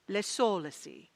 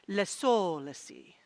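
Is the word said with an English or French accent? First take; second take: French; French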